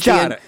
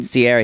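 First: The name is said with an Italian pronunciation. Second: The name is said with an English pronunciation.

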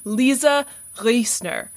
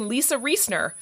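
First: The name is said with a guttural German pronunciation. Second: The name is said with an American pronunciation. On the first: "There's that beautiful guttural German accent" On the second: "like they say in the States"

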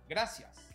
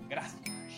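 First: It is said with a Latin American accent. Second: It is said with a Spain Spanish accent.

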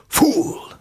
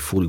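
First: The word is said in an exaggerated villain voice. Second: The word is said in a plain, ordinary voice. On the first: "but fool" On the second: "he wouldn't say fool"

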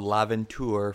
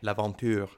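First: The name is said with an English accent. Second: The name is said with a French accent. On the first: The speaker calls it wrong. "Is that the right way to say it? The French way?" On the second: The speaker calls it right. "How would you say it, like, as a French speaker?"

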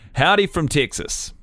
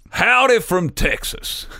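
First: It is read in the speaker's ordinary accent. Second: It is read in a put-on Texan accent.

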